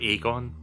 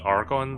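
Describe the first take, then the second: First: No R sound follows the first vowel. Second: An R sound follows the first vowel. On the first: The speaker calls it right. "but it's Agon" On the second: The speaker calls it wrong. "I keep putting an R in there"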